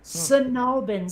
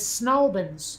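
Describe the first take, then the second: First: The name is said fully with every syllable clear. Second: The name is squashed into two quick syllables.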